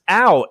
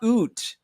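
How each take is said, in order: First: The vowel sounds like 'ow'. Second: The vowel sounds like 'oo'. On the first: The speaker calls it right. "out is ow" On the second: The speaker calls it wrong. "not oot"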